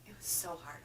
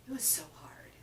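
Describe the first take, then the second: First: Said in the usual way. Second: Breathy whisper of "It was so hard"; hushed admission that the book was hard. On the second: Real, not acted. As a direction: whisper it like a confession. Confessing how hard it was.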